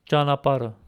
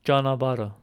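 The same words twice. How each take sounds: First: Janapara with a p in the middle; Eastern Armenian. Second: Janabara with a b in the middle; Western Armenian. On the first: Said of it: "in Eastern Armenian". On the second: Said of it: "in Western Armenian". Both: Shown as a demonstration.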